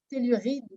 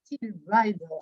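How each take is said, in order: First: It is said with a French accent. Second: It is said with an English accent.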